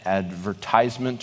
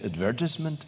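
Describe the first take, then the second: First: It is said the American way. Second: It is said the way people in Ireland say it.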